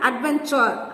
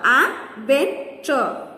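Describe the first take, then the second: First: Said in the usual way. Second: "adventure" slowly split as ad, ven, ture; syllable by syllable. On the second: Shown as a demonstration. Teacher counting syllables for children, "adventure" broken up slowly. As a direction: pause between the three syllables of "adventure". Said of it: "three syllables".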